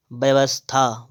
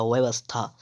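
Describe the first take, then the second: First: व्यवस्था starting with b; closed-lip b opening व्यवस्था; wrong pronunciation. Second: व्यवस्था starting with v; soft v opening व्यवस्था; correct pronunciation. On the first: Teacher reading the error, व्यवस्था with b. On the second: Teacher correcting, व्यवस्था with v. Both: Shown as a demonstration. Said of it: "व्यवस्था होता है".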